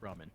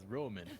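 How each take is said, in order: First: The first vowel is an open 'ah' sound. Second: The first vowel is a rounded 'oh' sound. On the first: The speaker calls it right. "I know it's pronounced cup ramen" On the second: The speaker calls it wrong. "it always got mispronounced as Roman"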